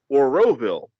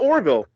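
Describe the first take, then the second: First: The name is said in full, every syllable heard. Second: The name is said shortened, with a syllable dropped. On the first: The speaker calls it right. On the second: The speaker calls it wrong. "not Orville"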